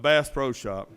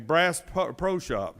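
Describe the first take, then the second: First: The first word is said like 'bass'. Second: The first word is said like 'brass'. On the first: The speaker calls it right. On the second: The speaker calls it wrong.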